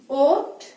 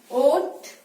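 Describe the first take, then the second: Both takes have the same delivery.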